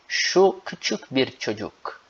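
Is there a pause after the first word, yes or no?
no. It is said straight through without pause.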